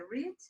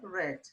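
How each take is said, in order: First: It is the present-tense pronunciation of read. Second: It is the past-tense pronunciation of read. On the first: The action happens now or habitually. "no presente a pronúncia é read" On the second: The action already happened. "no passado é read"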